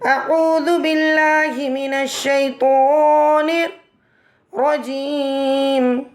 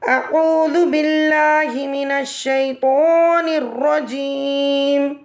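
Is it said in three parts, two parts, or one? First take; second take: two parts; one. First: It is said in two parts with a pause. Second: It is said as one whole without pauses.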